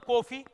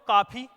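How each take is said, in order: First: The first vowel is a closed full o. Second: The first vowel is a long aa sound. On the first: "अगर मैं ओ की मात्रा तो कॉफी" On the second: "अगर मैं इसको ऐसे पढ़ूं तो काफी"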